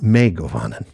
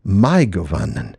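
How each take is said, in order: First: "Mai" said as "may"; mispronounced diphthong. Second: "Mai" rhyming with English "rye"; correct diphthong. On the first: Host showing the mistaken greeting, "Mai" said like "may". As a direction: say "Mai" with an ay vowel, rhyming with "ray", then "Govannen". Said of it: "not re". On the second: Host showing the right Sindarin greeting, "Mai" said like "my". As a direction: say "Mai" with an eye vowel, then "Govannen". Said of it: "as the vowels in English rai". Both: Shown as a demonstration.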